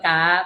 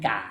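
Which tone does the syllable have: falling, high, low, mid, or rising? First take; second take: high; low. First: The syllable has a high tone. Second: The syllable has a low tone. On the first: "เปลี่ยนเป็นไม้ตีก็กา" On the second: "ถ้ากออากามีไม้เอกก็แปลเสียงเป็นกา"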